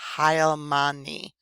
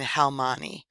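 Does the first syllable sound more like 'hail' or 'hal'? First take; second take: hail; hal. First: The first syllable sounds more like 'hail'. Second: The first syllable sounds like plain 'hal'. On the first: The speaker calls it right. "it sounds like more of a H I H A I L" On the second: The speaker calls it wrong. "And I'm saying Halmani"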